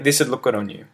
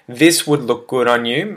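First: The words are said quickly, run together. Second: The words are said slowly, each kept clear. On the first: "contracted, and I said it quickly like a native" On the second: "if I was to read the first sentence again"

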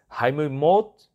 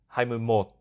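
First: The last syllable has a high rising tone. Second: The last syllable has a low, heavy tone. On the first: The speaker calls it right. "So it's" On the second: The speaker calls it wrong.

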